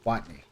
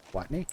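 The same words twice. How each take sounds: First: Watney. said low with a firm falling tune; low, decided take on Watney; settled falling try. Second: Watney? asked with a rising, unsure tune; quiet questioning attempt at Watney?; tentative rising try. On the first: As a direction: land Watney. low and final. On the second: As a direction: test the name Watney? softly, like a question. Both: Shown as a demonstration. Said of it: "E as in if you would say empty".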